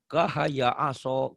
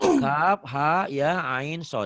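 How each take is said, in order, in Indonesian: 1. Huruf-huruf itu menyatu sebagai suku kata pendek. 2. Setiap huruf dibaca dengan nama lengkapnya. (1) "Tiba-tiba dibaca kahaya aso" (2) "Harusnya kan gitu"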